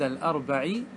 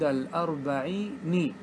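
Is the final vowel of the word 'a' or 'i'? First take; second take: a; i. First: The final nun is said with an a vowel. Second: The final nun is said with an i vowel. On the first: The speaker calls it right. "كان يجب عليه أن يقول ... مفتوحة" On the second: The speaker calls it wrong. "اسمع، والشاعر كسرها"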